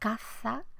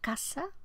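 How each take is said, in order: First: The middle consonant is an interdental th sound. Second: The middle consonant is a dental s sound. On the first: This keeps caza distinct from casa. "un fonema interdental, postdental, eh, castellano" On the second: This sounds the same as casa. "seseo, casa, en ambos usos"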